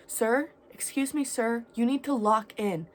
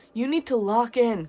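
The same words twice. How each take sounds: First: Higher, louder, no-nonsense order to a stranger; stern girl telling a stranger to get it together; firm command. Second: Much louder repeat of the order; girl yelling the order a second time, louder; commanding shout. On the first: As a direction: snap him out of it with a firm call. Girl firmly ordering crackhead. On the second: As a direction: shout it so he finally listens. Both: Retold or imitated.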